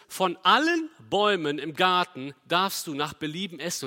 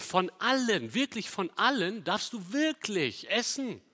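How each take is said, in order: First: Said in the usual way. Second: "allen" hit hard and high both times, "wirklich" leaned on; stress on allen. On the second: Shown as a demonstration. Preacher to the congregation, stressing "allen" and "wirklich". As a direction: lean on "von allen" as the Hebrew text does. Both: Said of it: "im Hebräischen wird das hier sogar betont".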